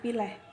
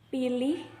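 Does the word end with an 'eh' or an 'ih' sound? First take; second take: eh; ih. First: The final syllable ends with an 'eh' sound. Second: The final syllable ends with an 'ih' sound. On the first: "diucapkan dengan akhiran eh" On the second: "setiap kata yang berakhiran ih"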